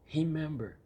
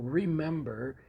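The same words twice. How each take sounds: First: The word begins with an h-like sound. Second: The word begins with an English r sound. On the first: The speaker calls it wrong. "and not" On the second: The speaker calls it right. "in English, that sound doesn't exist with the letter R. So you will say"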